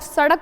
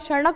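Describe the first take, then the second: First: The middle consonant is a plain flap, not nasal. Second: The middle consonant carries a nasal n sound. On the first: The speaker calls it wrong. "कई सारे लोग सड़क बोलते हैं, सड़क नहीं होता है" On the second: The speaker calls it right. "सड़क होता है। ... इसमें कहीं ना कहीं न का स्वर आ रहा है"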